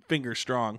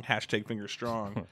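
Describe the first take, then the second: First: Said in the usual way. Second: Softer, lower throwaway hashtag; quiet aside. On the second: Real, not acted. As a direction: mutter it as a joke aside.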